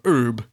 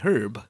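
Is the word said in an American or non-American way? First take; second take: American; non-American. First: The word is said the American way. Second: The word is said the non-American way.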